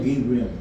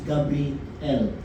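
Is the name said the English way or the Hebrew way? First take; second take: English; Hebrew. First: It is said the usual familiar English way. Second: It is said with a Hebrew pronunciation. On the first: The speaker calls it wrong. "Tayo Gabriel" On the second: The speaker calls it right. "Sa Hebrew, it's Gabriel"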